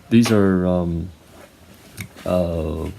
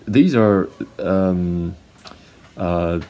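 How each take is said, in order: No difference in how they are said.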